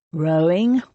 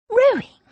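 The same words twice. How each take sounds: First: Said in the usual way. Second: Much higher, louder shocked echo; shocked gasp. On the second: A narrator's reading. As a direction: gasp the word in disbelief. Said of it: "She gasped".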